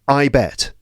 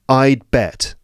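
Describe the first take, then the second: First: No d sound is heard before bet. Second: A faint d sound is heard before bet. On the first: "No D"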